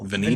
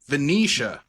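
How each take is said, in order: First: The name ends with a 'nee-ta' sound. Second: The name ends with a 'nee-sha' sound. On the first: The speaker calls it wrong. "how do I pronounce her name?" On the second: The speaker calls it right. "that's how Joe Bob pronounced it"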